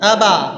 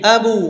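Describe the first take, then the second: First: The echo after the b sounds like a. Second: The echo after the b sounds like u. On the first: "জবর হয়ে গেল" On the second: "পেশ হয়ে গেল"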